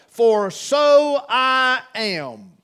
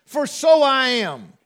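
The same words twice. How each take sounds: First: Drawn out slowly, leaning on so; the words of Christ, dwelt on slowly; slow stressed quote. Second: So punched and held; stress on so. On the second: Preacher repeating Christ's words, stress on so. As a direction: repeat it, hitting so. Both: Acted. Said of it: "Christ's words".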